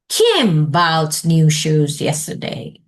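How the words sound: The stress falls on the word Kim. "underline Kim"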